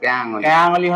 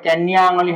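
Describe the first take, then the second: First: The first word has a plain y sound, no n. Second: The first word has an n sound before y. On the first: The speaker calls it right. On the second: The speaker calls it wrong.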